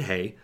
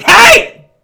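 First: The shout redone small and soft; toned-down hey. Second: Huge, high yell; full shout. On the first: Shown as a demonstration. Storyteller apologising to listeners, redoing the yell softly. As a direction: say it again, quietly this time. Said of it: "sorry about that". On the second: Retold or imitated. Startled hiker yelling at snapping twigs behind him, a full shout. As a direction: bellow it at the dark woods. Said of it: "I turned and I shouted".

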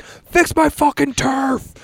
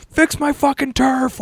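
First: Much higher, slow mock rage; hammed-up angry yell, drawn out; mock furious rant. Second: High, slow, hammed-up rage; a contestant losing it over scuffed turf, mock yelling; imitated outburst, stretched and high; mock furious rant. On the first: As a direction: imitate a guy losing it over his turf. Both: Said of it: "he fucking goes nuts".

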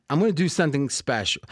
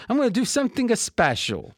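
First: Said in the usual way. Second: Put-on higher-pitched, playful Italian accent; mock Italian accent. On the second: Host announcing a special deal, put-on Italian accent. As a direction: lift it into a joking Italian sing-song.

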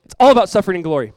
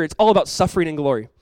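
First: It's all about suffering and glory, louder and fast, hammering all; emphatic repeat. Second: Said in the usual way. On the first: Shown as a demonstration. Preacher repeats the theme to the congregation, louder and faster. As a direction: drive the point home the second time.

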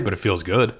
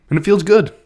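First: Said in the usual way. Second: Much higher and louder, beaming; feels good, excited. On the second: Acted. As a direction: savour the gut pick with a big lift. Gut pick feels right.

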